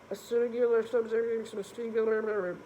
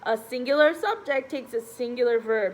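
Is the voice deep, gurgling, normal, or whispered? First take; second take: gurgling; normal. First: It is said with a gurgling, underwater sound. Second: It is said in an ordinary speaking voice.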